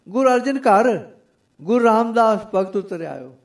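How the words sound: The pause comes right after 'ghar'.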